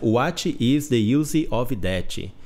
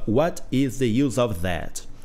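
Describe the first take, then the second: First: The sentence is pronounced with distorted sounds. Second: The sentence is pronounced in a standard way. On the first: "Ou eu errava a pronúncia" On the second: "E eu ficava"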